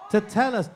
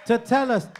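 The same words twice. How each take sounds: The two takes are said the same way.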